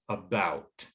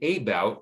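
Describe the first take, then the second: First: The first vowel is a short schwa sound. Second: The first vowel is a long A sound. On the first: The speaker calls it right. "to the schwa" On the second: The speaker calls it wrong. "the first syllable changes from a long A"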